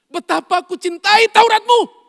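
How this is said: It is said as a strong exclamation. The speaker fully and passionately means it. The speaker calls it right. "Daud itu tanda seru loh. ... Itu cara bacanya"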